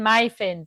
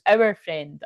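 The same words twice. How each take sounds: First: MY stressed in "my friend". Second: OUR stressed in "our friend". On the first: Reader correcting herself about whose friend he was, MY stressed. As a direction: lean on the word MY. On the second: Reader sharing the lost friend with others, OUR stressed. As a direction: lean on OUR to correct "my". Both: Real, not acted. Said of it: "but it was our friend".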